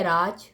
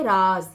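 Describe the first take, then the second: First: राज ending in j, "raaj"; hard stopped j closing राज; j sound. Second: राज drawn out as "raaz"; long buzzing z closing राज; z sound. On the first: Teacher contrasts two words, राज with final j. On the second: Teacher contrasts two words, slow राज with final z. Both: Shown as a demonstration. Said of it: "क्या difference है दोनों में?".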